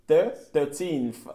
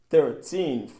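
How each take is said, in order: First: "Thir-, thirteenth" very slow, first syllable split off; slow teacher model of thirteenth; slow syllable drill. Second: Said in the usual way. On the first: Shown as a demonstration. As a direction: break the word apart slowly for learners. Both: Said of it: "teacher models thirteenth".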